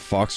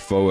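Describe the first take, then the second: First: The name ends with a 'ks' sound. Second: The name ends with a long 'o' vowel. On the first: The speaker calls it wrong. "Is it Fox or Foe?" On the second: The speaker calls it right. "It's Foe"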